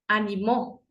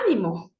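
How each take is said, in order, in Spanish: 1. El acento está en la última sílaba. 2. El acento está en la primera sílaba. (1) "en tiempo pasado" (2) "si es que lleva la tilde en la A"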